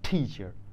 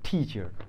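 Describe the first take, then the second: First: The first t has a puff of air. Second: The same.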